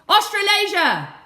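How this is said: It is shouted very loudly. "Now I want you to shout it really loud"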